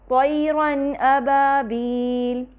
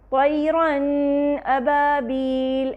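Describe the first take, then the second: First: The nasal n sound has a moderate length. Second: The nasal n sound is drawn out extra long. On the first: The speaker calls it right. "नून को तवस्सुत देते हुए" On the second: The speaker calls it wrong. "नून को इजाफी गुन्ना नहीं देंगे"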